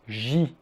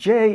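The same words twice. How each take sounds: First: The letter is named the French way. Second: The letter is named the English way. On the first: The speaker calls it right. "It's J" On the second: The speaker calls it wrong. "J is actually wrong as well"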